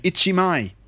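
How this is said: It is said as Japanese-style syllables. "they'd be going ichimai"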